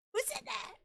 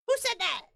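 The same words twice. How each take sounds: First: Very high, thin who said that; squeaky mock fright. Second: High, loud startled who said that; mock panic. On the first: Scared of the invisible voice, squeaking who said that. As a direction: squeak it in fake terror. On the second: Pretending fright at the unseen voice, calling out. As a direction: jump in fake fright.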